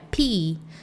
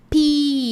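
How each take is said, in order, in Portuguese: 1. A vogal é um i mais fraco e fechado. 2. A vogal é um i forte e aberto. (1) "não é pi" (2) "ele é um I aberto"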